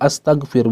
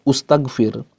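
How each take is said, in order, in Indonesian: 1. Kata ini diawali dengan vokal a. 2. Kata ini diawali dengan vokal u.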